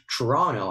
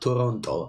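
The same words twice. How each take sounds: First: It is pronounced the local English way. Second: It is pronounced the Italian way. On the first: The speaker calls it right. "you should say Toronto" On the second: The speaker calls it wrong. "not Toronto, as as, as an Italian would say"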